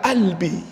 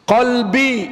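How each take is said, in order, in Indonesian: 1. Kata ini dimulai dengan hentian glotis. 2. Kata ini dimulai dengan bunyi Q belakang yang dalam. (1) "Qalbi dibaca albi" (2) "Qaf diganti hamzah"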